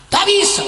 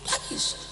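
First: High, loud cry of tak bisa; full-voiced shout of no; shouted refusal. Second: Tak bisa breathed out in a whisper; hushed no after the shout; whispered refusal. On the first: Preacher voicing a firm refusal. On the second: Acted. Same refusal repeated softly.

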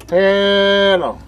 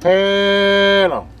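No difference in how they are said.

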